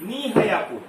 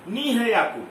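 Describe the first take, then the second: The two takes are said the same way.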